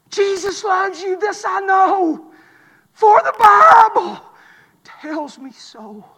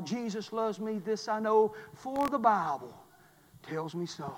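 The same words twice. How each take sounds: First: Chanted, slow, drawn-out declaimed hymn line; chanted, stretch each phrase, swell, then drop to hushed. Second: Hushed hymn recital. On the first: Preacher calling hymn words to the quitter, slow chanting. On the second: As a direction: let the line sink away quietly. Same hymn words repeated quietly. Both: Acted.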